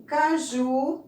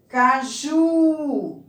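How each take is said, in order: First: Said in the usual way. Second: Caju with a high, loud, long JU; stress on last syllable. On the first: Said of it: "nós temos primeiro banana". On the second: Shown as a demonstration. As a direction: hit and hold the JU in Caju. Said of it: "No ju".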